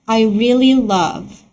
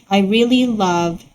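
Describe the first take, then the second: Both takes have the same delivery.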